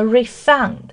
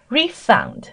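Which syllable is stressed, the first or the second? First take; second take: second; first. First: The stress is on the second syllable. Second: The stress is on the first syllable. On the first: It is used as a verb. "refund 它是一个动词，所以说呢它的重音是靠后的" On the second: It is used as a noun. "那么在前面的这个是名词哈"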